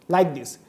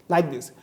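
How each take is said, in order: No difference in how they are said.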